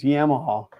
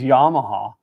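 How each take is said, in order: First: The first syllable sounds like 'yeah'. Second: The first syllable sounds like 'yaw'. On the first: The speaker calls it right. "but it's Yamaha" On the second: The speaker calls it wrong. "you said yaw instead of yeah"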